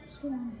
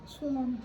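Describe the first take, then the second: The two takes are said the same way.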